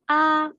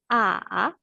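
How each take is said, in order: First: The pitch stays level and high. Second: The pitch falls low, then rises. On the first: "Le premier ton est un ton plat" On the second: "Descendant et montant"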